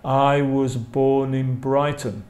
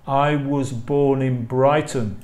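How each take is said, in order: Both takes have the same delivery.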